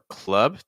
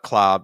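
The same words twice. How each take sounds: First: The vowel is a relaxed schwa, like 'cup'. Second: The vowel is open, close to 'cop'. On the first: The speaker calls it right. "It's going to be more club. That's the ideal sound we want. More of a schwa" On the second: The speaker calls it wrong. "So it's not club"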